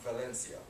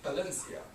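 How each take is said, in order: First: The name begins with a V sound. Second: The name begins with a B sound. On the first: The speaker calls it wrong. "not Valencia" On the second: The speaker calls it right. "We say Valencia"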